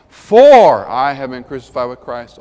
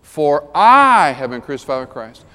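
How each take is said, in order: First: "For" stretched out long and loud; booming, drawn-out "For" opening the verse; stress on For. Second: "I" stretched out long and loud; booming, drawn-out "I" after a quick "For"; stress on I. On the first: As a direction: hit the word "For" hard, the rest lighter. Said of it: "But I emphasize each word". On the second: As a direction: hit the word "I" hard, the rest lighter. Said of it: "I emphasize each word". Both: Shown as a demonstration.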